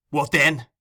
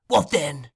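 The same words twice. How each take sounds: First: Loud, rough retort; Sikes, fierce oath. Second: Fagin, demanding. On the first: Sikes retorting to Fagin, loud and fierce. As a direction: throw the question back angrily. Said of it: "Replied Sikes with a tremendous oath". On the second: Fagin demanding an answer from Sikes, pointed and falling. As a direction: throw down the question sharply. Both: A narrator's reading.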